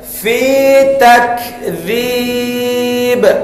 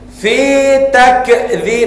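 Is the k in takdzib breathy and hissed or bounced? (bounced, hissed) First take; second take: hissed; bounced. First: The k is released with a soft breathy hiss. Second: The k is released with an echoing bounce. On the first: The speaker calls it right. "tengok hamas dia ... mesti macam tu" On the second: The speaker calls it wrong. "tu qalqalah pula dia"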